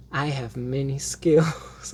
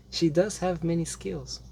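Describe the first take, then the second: First: Slow, savoured "I have many skills"; quoting Xena. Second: Said in the usual way. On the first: Retold or imitated. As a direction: relish the line like Xena. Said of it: "Infamous Xena line". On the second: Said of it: "every time Xena says".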